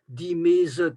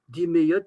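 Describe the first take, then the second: First: The middle consonant is a z sound. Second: The middle consonant is a y sound. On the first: This is the Léon dialect form. "ça c'est du léon" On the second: This is the more general form. "ce serait plus général"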